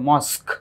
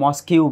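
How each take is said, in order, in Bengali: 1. শব্দটি একটি 'k' ধ্বনি দিয়ে হঠাৎ শেষ হয়। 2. শব্দটির শেষে একটি অতিরিক্ত 'kew' ধ্বনি যোগ হয়। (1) "উচ্চারণ হবে মস্ক" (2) "বাংলায় বলবে হচ্ছে এটাকে মস্কিউ বলে"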